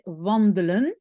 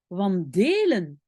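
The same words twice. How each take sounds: First: The second-syllable e is a reduced, mute vowel. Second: The second-syllable e is a full, clear vowel. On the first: The speaker calls it right. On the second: The speaker calls it wrong. "ce n'est pas"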